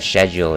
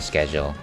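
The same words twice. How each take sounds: First: The word is said in a fancy-sounding way. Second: The word is said in an ordinary way. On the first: "I like saying uh, schedule ... Just because I like to feel fancy" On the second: "instead of schedule"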